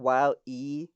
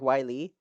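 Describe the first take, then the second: First: The name is split into two separate parts. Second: The name runs together as one word. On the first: The speaker calls it right. "instead of Wild E Coyote" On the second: The speaker calls it wrong. "they say the whole word like Wiley"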